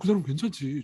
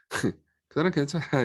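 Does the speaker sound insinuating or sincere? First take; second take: sincere; insinuating. First: It is said in a warm, sincere tone. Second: It is said in a doubtful, insinuating tone. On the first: The person is genuinely good. "좋은 사람이야" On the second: The person seems to be hiding something shady. "뒤의 방식을 말하면 어, 좀 그 사람 좀 꽁꽁이 뭔가 구린 게 있나 보다"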